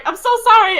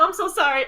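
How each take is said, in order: First: Higher, louder pleading sorry; frantic apology. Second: Said in the usual way. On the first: Acted. Nyla to Sal after hurting him, higher loud frantic sorry. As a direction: rush the apology in a panic. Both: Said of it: "Nyla runs over and she's like".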